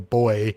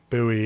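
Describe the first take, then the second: First: It is said the non-American way. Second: It is said the American way. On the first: "here I would say boy" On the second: "when I'm in the States I say buoy"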